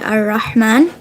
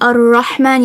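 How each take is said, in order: First: The r is said light, without a full mouth. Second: The r is said heavy, with a full mouth. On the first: The speaker calls it wrong. "if you didn't make it full mouth ... you would say" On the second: The speaker calls it right. "Instead of saying"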